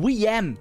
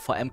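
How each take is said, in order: First: The first letter is said as 'weh'. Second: The first letter is said as 'fau'. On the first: "wie die coolen Leute sagen" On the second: "der sagt nicht VM"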